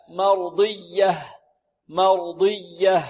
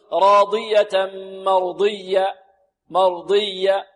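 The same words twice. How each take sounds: First: مرضية ending in an audible breathed h; clear final ha. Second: مرضية ending on a bare "-ya"; faulty pause with no h in مرضية; dropped final ha. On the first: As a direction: finish slow مرضية on a clear "-yah". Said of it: "لابد من إيضاح الهاء". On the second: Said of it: "لابد من إيضاحها عند الوقف". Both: Shown as a demonstration.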